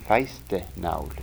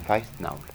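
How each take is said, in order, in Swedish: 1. Ett extra e-ljud sätts in inuti ordet. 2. Inget extra vokalljud sätts in inuti ordet. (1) "Inget e emellan, ett sånt är" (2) "utan feistnaul"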